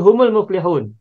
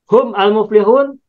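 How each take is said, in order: First: The words are linked with a u after mim. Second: The words are said separately, mim without vowel.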